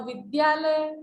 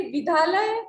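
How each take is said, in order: First: विद्यालय with a clear "dy", "vid-DYAA-lay"; correct pronunciation. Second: विद्यालय without the "y", "bidhaalay"; wrong pronunciation. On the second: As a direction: say विद्यालय as "bi-DHAA-lay". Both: Shown as a demonstration. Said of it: "विद्यालय शुद्ध है".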